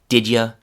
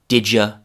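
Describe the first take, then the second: Both takes have the same delivery.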